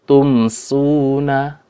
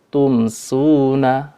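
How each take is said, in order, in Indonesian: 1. Bunyi m dilafalkan jelas sebelum s. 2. Bunyi m dilafalkan jelas sebelum s.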